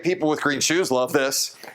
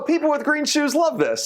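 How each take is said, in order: First: It is said in a flat, serious tone. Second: It is said in a light, playful tone. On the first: The speaker calls it wrong. "So it's not" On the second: The speaker calls it right. "you have to use a fun tone"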